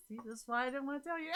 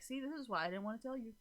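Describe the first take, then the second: First: High, quick mock retort; amused, hurried imitation of herself; playful self-mimicry. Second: Said in the usual way. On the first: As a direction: rattle it off high in a silly voice. Repeats own retort, laughing, mocking herself.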